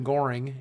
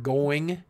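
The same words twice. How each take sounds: First: Goring with an r sound in the middle; going with a Southern r, like goring. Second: Said in the usual way. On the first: Shown as a demonstration. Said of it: "The word going is often goring". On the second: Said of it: "I pronounce some words completely incorrectly".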